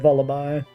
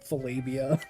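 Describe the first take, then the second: First: The name rhymes with lullaby. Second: The name does not rhyme with lullaby. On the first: The speaker calls it right. "it's it's Lullaby, Vullaby" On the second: The speaker calls it wrong. "I shouldn't say Vol- Volabia"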